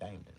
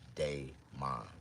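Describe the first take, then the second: First: The first syllable does not sound like 'day'. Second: The first syllable sounds like 'day'. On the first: The name is given loosely to outsiders. The speaker calls it wrong. "I'm gonna tell them my name is Damon" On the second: This is the speaker's real name. The speaker calls it right. "My real name is Daymon. D A Y M O N"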